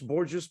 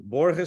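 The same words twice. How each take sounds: First: The name is said with a Portuguese pronunciation. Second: The name is said with a Spanish pronunciation. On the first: "Borges Portuguese" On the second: "Borges Spanish"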